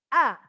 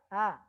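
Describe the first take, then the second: First: The vowel is wide open and clear. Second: The vowel is less open and unclear. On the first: The speaker calls it right. "a terbuka" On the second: The speaker calls it wrong. "kurang terbuka, kurang jelas suaranya"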